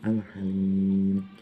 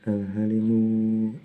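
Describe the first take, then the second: First: The word stops on the final consonant. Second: The word ends with a short vowel. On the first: "dibaca waqaf"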